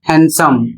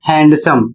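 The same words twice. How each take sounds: First: The d sound is silent. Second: The d sound is pronounced. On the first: The speaker calls it right. "इसका सही उच्चारण होता है हैंडसम" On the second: The speaker calls it wrong. "जबकि इसको आप पढ़ते हैं हैंडसम"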